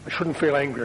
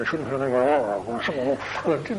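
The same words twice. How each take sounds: First: Said in the usual way. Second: Slow, strained, drawn-out mock growl; anger bursting out. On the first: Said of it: "if the feeling's only that high". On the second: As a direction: act repressed anger swelling into a growl. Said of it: "it'll end up being that high".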